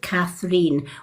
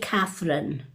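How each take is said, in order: First: The name ends with a long 'reen' sound. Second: The name ends with a short 'rin' sound. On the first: This is the Irish way of saying the name. The speaker calls it right. "it's actually pronounced Catherine" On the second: This is the usual spelling with an E in the middle. The speaker calls it wrong. "If it had an E in the middle, it would be Catherine"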